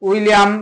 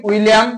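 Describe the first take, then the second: Both takes have the same delivery.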